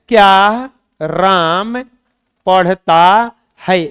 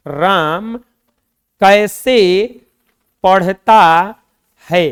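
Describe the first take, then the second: First: क्या राम पढ़ता है very slowly, क्या rising up front; slow demo with क्या. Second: Word by word, hit कैसे; stress on कैसे. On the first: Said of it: "अगर ऐसे आ जाए". (बहुत धीरे, क्या पहले उठाकर) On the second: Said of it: "चलो बताओ तो". (कैसे पर ज़ोर, रुक-रुककर) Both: Shown as a demonstration.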